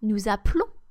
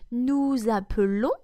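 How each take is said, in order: First: The middle E is dropped. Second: The middle E is pronounced. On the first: "it's also easy to not pronounce the letter E here" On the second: "you can either read nous appelons"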